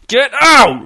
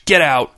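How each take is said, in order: First: High, loud, explosive order; screamed. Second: Said in the usual way. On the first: A narrator's reading. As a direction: scream it with a drawn-out OUT. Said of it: "Reg screamed". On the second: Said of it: "said Reg".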